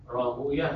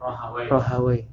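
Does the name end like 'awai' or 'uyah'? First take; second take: uyah; awai. First: The name ends with an 'uyah' sound. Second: The name ends with an 'awai' sound. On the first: This is the reading used by hadith scholars. The speaker calls it right. "Kalau alul hadis bacanya semuanya Rahuyah" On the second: This is the reading disliked by hadith scholars. The speaker calls it wrong. "Alul hadis membenci bacanya Rahawai"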